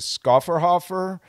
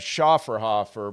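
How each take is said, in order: First: The name is said with an Anglicized pronunciation. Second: The name is said with a German pronunciation. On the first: This is how the brand itself says it. "I think the proper pronunciation is a" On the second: This follows the speaker's German heritage. "calling it a Schafferhofer because of the German pronunciation"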